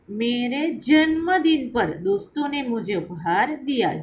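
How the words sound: The stress is on जन्मदिन.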